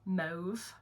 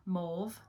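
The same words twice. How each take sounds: First: "Mauve" with the long "oh" of "mow", rising; other pron of Mauve. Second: "Mauve" with the vowel of "law", rising; pron of Mauve. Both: Shown as a demonstration.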